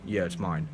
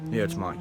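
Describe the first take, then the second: First: Low, soft, flat "Yeah, it's mine"; deadpan "Yeah, it's mine", barely said; flat, indifferent. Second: Said in the usual way. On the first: Retold or imitated. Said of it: "He literally said to me". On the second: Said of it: "he was just like".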